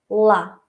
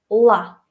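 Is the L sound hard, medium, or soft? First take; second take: hard; hard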